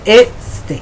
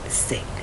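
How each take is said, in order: First: An extra 'eh' vowel comes before 'state'. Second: The word starts directly with the 's' sound. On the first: The speaker calls it wrong. "my students would say" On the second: The speaker calls it right. "There's no eh"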